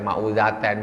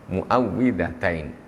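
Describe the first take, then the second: First: It starts 'ma' with no doubled w. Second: The vowel after the doubled w is 'i'. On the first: The speaker calls it wrong. "jangan dibaca ma'udzatain" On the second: The speaker calls it right. "jangan salah. Muawwidzatain"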